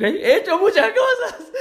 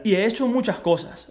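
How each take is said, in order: First: Repeated through a high laugh; giggling repeat, much higher. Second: Said in the usual way. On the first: Real, not acted. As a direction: laugh the words out, amused at yourself.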